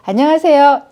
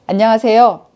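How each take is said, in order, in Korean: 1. 이 인사는 웃으면서 말했어요. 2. 이 인사는 웃음기 없이 밋밋하게 말했어요. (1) "말에 웃음기를 얹어 보세요" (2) "이렇게 얘기하는 것과"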